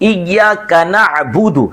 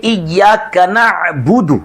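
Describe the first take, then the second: Both takes have the same delivery.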